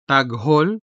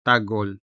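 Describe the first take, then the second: First: Taghol with a full, audible h; clearly sounded h. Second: Tagol, g running straight into ol; dropped h. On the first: Tutor offers either option, taghol with clearly sounded h. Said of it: "clearly and audibly sound the unstressed ha". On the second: Tutor offers either option, tagol with dropped h. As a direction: say tagol with no audible h. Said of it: "ha consonant is much less prominent". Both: Shown as a demonstration.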